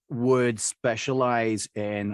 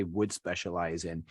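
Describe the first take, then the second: First: "would" drawn out slowly and weighted; stress on would. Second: Said in the usual way. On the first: Shown as a demonstration. Coach stressing "would" for the interviewer. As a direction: lean slowly on "would", then "specialize in". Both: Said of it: "I say would specialize in".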